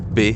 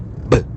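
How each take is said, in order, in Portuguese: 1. A letra é dita pelo nome completo. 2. A letra é dita pelo seu som puro. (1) "ao invés de" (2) "o som que as letras fazem"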